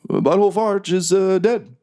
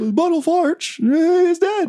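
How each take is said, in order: First: A put-on, halting, measured presidential voice. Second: A put-on, quirky sitcom comedian voice. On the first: "would it be better if Obama said it?" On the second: "I can do Seinfeld"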